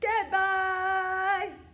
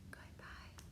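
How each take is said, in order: First: It is said very loudly. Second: It is said very quietly.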